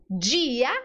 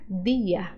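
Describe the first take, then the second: First: The word starts with a j-like sound. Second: The word starts with a plain d sound. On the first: The speaker calls it wrong. "cuidado para você não fazer o som de, de na letra D" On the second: The speaker calls it right. "No espanhol, só existe o D de dente"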